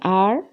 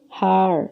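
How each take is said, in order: First: The word begins with a silent H. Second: The word begins with an audible H sound. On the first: The speaker calls it right. "Instead we say" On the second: The speaker calls it wrong. "You're not supposed to say"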